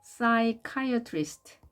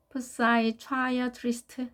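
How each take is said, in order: First: Psychiatrist as "sai-kai-a-trist", slowly; correct pronunciation. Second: Psychiatrist misread as "pu-sai-chwa-ya-trist"; wrong pronunciation. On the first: Teacher correcting the misreading, Psychiatrist as "sai-kai-a-trist". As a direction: silent P and hard K in Psychiatrist, higher and slow. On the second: Teacher showing learners the mistake, psychiatrist as "pusai-chwayatrist". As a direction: sound the P and a CH in psychiatrist, slowly. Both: Shown as a demonstration. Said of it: "이렇게 읽으면 안 되겠죠".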